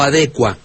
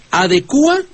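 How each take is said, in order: First: "adecua" as a-DE-cua, stress on the e. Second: "Adecua" as a-de-CÚ-a, stress on the u. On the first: Host offers the maestro the other form, "adecua" stressed on DE. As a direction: say "adecua" with cua as one syllable. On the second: Host asks the maestro which form is right, "Adecua" stressed on U. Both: Shown as a demonstration. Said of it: "¿cómo se dice?".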